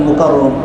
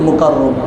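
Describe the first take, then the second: Both takes have the same delivery.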